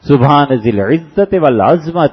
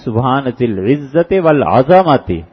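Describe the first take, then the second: First: The z has no vowel after it: azmat. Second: The z has an a vowel after it: azamati. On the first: It means the Lord has bones. The speaker calls it wrong. "ये जितने पढ़ते हैं ये गलत पढ़ते हैं" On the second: It means the Lord has majesty. The speaker calls it right. "ज़ोए पे जबर डालनी है"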